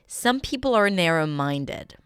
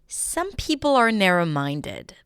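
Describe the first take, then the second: The two takes are said the same way.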